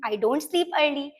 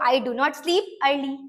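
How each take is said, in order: First: The words 'do not' are contracted to 'don't'. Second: The words 'do not' are said in full. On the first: The speaker calls it right. "Short form में हम लोग आजकल डोंट बोलते हैं" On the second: The speaker calls it wrong. "पूरा डू नॉट नहीं बोलना चाहिए"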